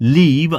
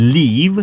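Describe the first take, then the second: First: The vowel is a short 'i' sound. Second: The same.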